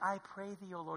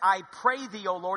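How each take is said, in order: First: It sounds sincere and reverent. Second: It sounds exasperated and insincere.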